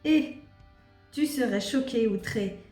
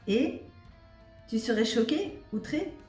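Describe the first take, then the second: First: It is read in a flat, plain voice. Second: It is read with lively, expressive intonation. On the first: The speaker calls it wrong. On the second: The speaker calls it right.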